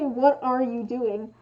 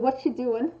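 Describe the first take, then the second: First: Every word is said, including 'are'. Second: The word 'are' is left out entirely. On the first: "You don't say what are you doing" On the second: "You say what you doing"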